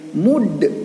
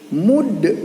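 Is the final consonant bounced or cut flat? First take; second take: bounced; bounced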